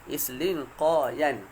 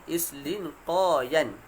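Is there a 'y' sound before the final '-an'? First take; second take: yes; yes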